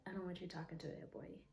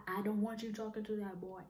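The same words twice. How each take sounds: First: Said in the usual way. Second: Higher, firm aggressive order. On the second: Retold or imitated. Jealous boyfriend forbidding her friend, imitated aggressive demand. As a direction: imitate him laying down the law, raised pitch. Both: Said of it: "He said it in an aggressively way".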